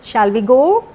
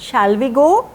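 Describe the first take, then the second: No difference in how they are said.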